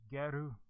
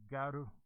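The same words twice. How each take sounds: No difference in how they are said.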